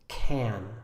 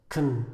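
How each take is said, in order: First: The word has a full vowel and sounds longer. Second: The word has a reduced vowel and sounds shorter. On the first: "The first one we call the strong pronunciation. It sounds like this" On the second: "the weak pronunciation, is much shorter. It sounds like this"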